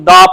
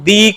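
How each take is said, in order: First: The word ends in a short, weak 'uh' vowel. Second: The word ends in a long 'ee' vowel. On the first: The next word starts with a consonant sound. "तो उस वक्त जो हम द इस्तेमाल करेंगे तो उसको हम द प्रोनाउंस करेंगे" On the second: The next word starts with a vowel sound. "तो उससे पहले जो वर्ड अगर द इस्तेमाल हुआ है तो उसको हम दी कहेंगे"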